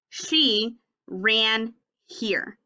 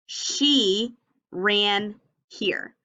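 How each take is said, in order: First: Very slow, each word apart. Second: Very slow, each word spaced out; slow choral reading. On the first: Teacher modeling slow reading for class. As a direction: read it word by word, pointing. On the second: Teacher reading along with children. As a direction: read along slowly with the class. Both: Shown as a demonstration. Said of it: "Read it with me".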